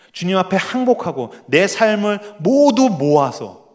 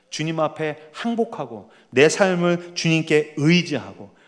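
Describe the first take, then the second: First: Slow and louder, leaning on 모두; fervent prayer. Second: Said in the usual way. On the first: Acted. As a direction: stretch out 모두 모아서 with rising fervor. Prayer repeated more intensely.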